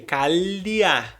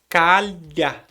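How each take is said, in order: First: An extra 'ee' sound comes before the final vowel. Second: No extra sound comes before the final vowel. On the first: The speaker calls it wrong. "aí vai ter um fonema a mais. A pessoa está incluindo um i no meio" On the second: The speaker calls it right. "Mas o fonema correto é calha"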